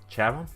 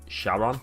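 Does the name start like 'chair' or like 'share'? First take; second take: chair; share. First: The name starts like the word 'chair'. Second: The name starts like the word 'share'. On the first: The speaker calls it right. "I'll try and pronounce it as chair on from now on" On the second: The speaker calls it wrong. "So I've kind of said Sharon from then"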